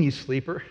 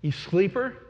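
First: Said in the usual way. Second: Higher, rising jab at the sleeper; the captain taunting Jonah, mildly raised and rising; mock scolding captain. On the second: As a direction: needle him with the word sleeper.

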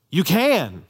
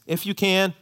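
First: "you can" louder with a firm fall on "can"; confident declaration. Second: "If you can" with a hesitant lift on "can", unsure of the answer; doubtful plea. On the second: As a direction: ask "If you can" as if doubting it will happen. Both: Shown as a demonstration. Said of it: "and you hear the difference".

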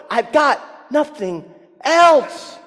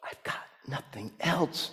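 First: Higher, louder, slow anguished shout; nothing else, cried out slowly and loud; desperate cry. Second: Much softer, thought aloud; quiet inner thought. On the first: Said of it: "he cries out". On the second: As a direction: confess it to yourself, hushed. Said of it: "I have a feeling Jacob thought". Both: Retold or imitated.

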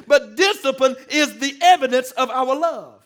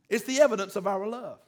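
First: Preached line. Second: Said in the usual way. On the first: Acted.

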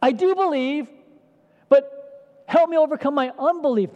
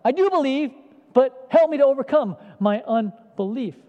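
First: Loud, much higher desperate cry; cries out. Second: Loud, higher pleading cry; desperate cry. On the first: Acted. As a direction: cry out to Jesus, pleading hard. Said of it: "So the father cries out". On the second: Retold or imitated. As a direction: plead with all your heart. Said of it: "It's like".

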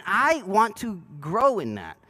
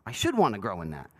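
First: I want to grow in that, leaning on I; slow, with I stressed. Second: Should said low and firm; low voice, weight on should; stress on should. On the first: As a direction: lean on I, slowly. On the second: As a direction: press down on should. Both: Shown as a demonstration.

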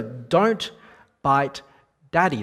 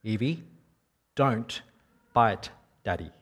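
First: Firm, louder scolding warning; stern parent scolding a biting child; raised voice. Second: Put-on a calm, level warning to a small child; said calmly. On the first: Retold or imitated. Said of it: "I raised my voice at her". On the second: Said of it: "I said calmly".

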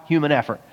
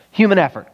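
First: Said in the usual way. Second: "Human effort" punched out higher and with more force; emphatic repeat. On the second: Shown as a demonstration. Preacher stressing "Human effort" harder to his congregation. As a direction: hammer "Human effort" home the second time.

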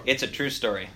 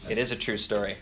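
First: Said in the usual way. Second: "is" leaned on to insist; stress on is. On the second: Shown as a demonstration. Pastor to a doubting listener, insisting on "is". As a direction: press the word "is" to insist it really happened. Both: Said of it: "Is it true or".

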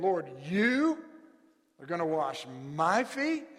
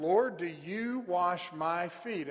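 First: Lord, YOU pushed up and louder in shocked disbelief; indignant stress on you. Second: Said in the usual way. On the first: Shown as a demonstration. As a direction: lean on "you" as if it's unthinkable. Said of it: "Almost indignant, just shock at the possibility". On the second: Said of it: "the Greek structure there allows us to see emphasis".

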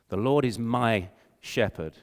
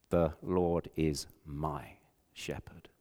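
First: Said in the usual way. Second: Soft slow whisper, almost breath; hushed whisper. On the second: Acted. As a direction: whisper it like a dying boy's prayer. Frozen boy's last words.

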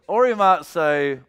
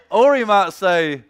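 No difference in how they are said.

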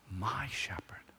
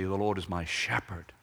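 First: "My" leaned on, "shepherd" softly falling away; soft, possessive weight on "My"; stress on MY. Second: "shepherd" carries the weight, "my" passed over lightly; usual stress on SHEPHERD. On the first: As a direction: point up "My" in a hushed voice. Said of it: "something emphasized before you get to the word shepherd". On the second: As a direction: say it the typical way, landing on "shepherd". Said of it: "typically we would say". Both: Shown as a demonstration.

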